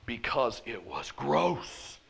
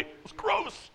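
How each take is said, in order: First: Disgusted. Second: "gross" squeaked high with disgust; emphatic disgust. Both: Real, not acted. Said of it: "Can I say it any more emphatically?".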